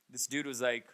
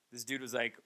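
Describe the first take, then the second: No difference in how they are said.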